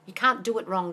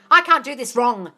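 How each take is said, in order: First: Said in the usual way. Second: 1 bold self-affirmation. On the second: Shown as a demonstration. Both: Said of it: "Tell your mind".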